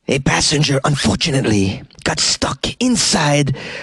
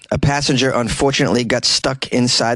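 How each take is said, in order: First: It is said in an exaggerated put-on voice. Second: It is read in the speaker's ordinary voice.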